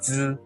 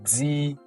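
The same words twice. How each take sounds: First: The syllable ends in a buzzing sound, no 'ee'. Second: The syllable ends in a clear 'ee' vowel. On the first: The speaker calls it right. "It's Z, Z, Z inside. The sound is from inside" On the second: The speaker calls it wrong. "we don't have E. Uh, we don't say Z. No, no"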